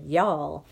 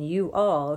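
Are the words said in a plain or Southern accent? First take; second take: Southern; plain. First: The words are said in a Southern drawl. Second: The words are said in a plain accent. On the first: "Mama started talking Southern style" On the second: "instead of saying"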